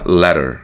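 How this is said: American accent, with an r sound at the end. "a pronúncia americana vai ter um Rzinho aqui"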